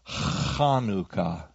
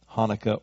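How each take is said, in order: First: It begins with a guttural throat sound. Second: It begins with a plain H sound. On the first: "some of us have a problem with that guttural sound" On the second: "it's okay if you say Hanukkah"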